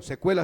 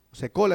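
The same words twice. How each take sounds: First: "se cuela" with the ue diphthong; nicer-sounding verb form. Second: "Se cola" with a plain o vowel; wrong verb form. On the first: Preacher picking the prettier verb form, "se cuela" with ue. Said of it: "se oye más bonito". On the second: Preacher testing how the verb is said, "Se cola" with plain o. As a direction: say "Se cola" with o, not the ue diphthong. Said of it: "Muy feo". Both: Shown as a demonstration.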